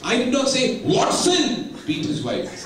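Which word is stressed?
Watson. The stress falls on the word Watson. Someone else beat his wife. "Pavas Chandra would have beaten his wife"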